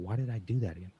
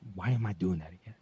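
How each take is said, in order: First: It sounds gentle and curious. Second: It sounds harsh and critical.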